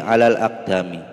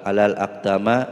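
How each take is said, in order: First: The last word ends in an i vowel. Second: The last word ends in an a vowel. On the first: The speaker calls it right. "kenapa dibaca mi? Karena ada huruf jar ala" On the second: The speaker calls it wrong.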